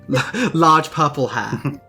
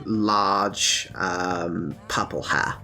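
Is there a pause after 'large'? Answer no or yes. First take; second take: no; yes. First: The phrase runs on with no pause. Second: There is a filled pause after 'large'. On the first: The speaker calls it right. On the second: The speaker calls it wrong.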